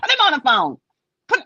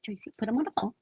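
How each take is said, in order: First: Raised, higher shout of an order; exasperated acted command; loud demand. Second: Softer, restrained acted request; toned-down insistence; quiet demand. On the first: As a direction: demand it loudly and impatiently. Acted demand to the child's mother. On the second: Same demand, now toned down.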